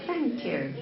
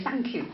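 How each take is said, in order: First: "thank you" with a clear, slow "th"; careful "th" opening "thank you". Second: "thank you" starting with "s", like "sank you"; bad pronunciation. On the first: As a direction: model "thank you" with tongue between the teeth. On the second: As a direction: swap the "th" in "thank" for "s". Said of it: "bad pronunciation". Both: Shown as a demonstration.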